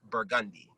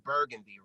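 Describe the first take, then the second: First: It is said the local New Orleans way. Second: It is said the usual general way. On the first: This is how the local place name is said. "pronounced in New Orleans, it's burgundy" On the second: This is the common name for the color. "here we all know it as burgundy"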